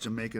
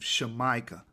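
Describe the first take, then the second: First: The word begins with a j sound. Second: The word begins with an sh sound. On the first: The speaker calls it wrong. "Jamaica is not supposed to be pronounced Jamaica" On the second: The speaker calls it right. "That's how you're supposed to say it"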